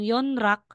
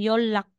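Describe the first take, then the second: First: The middle consonants are said as n and r. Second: The middle consonants are said as an l sound. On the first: The speaker calls it wrong. "Instead na sasabihin mong Yonrak" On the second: The speaker calls it right. "magiging Yolak"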